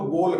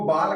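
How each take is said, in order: First: The vowel is a full 'o' sound. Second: The vowel is a full open 'aa' sound. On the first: "न तो बोल कहेंगे" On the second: "न तो इसको बाल कहेंगे"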